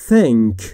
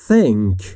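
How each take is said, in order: Both takes have the same delivery.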